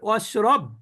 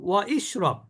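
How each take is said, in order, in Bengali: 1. Wa সরাসরি কোনো i ছাড়াই ক্রিয়ায় গিয়ে মেশে। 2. Wa-এর পরে একটি আলাদা i ধ্বনি থাকে।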